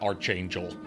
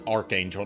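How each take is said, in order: First: The first syllable is said with a ch sound. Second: The first syllable is said with a hard k sound. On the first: The speaker calls it wrong. "not Archangel" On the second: The speaker calls it right. "It's Archangel, it's pronounced Arc"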